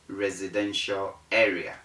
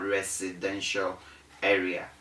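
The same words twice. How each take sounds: First: The middle consonant is a voiced Z sound. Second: The middle consonant is a voiceless S sound. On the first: The speaker calls it right. "the Z sound is right" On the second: The speaker calls it wrong. "The S sound is wrong"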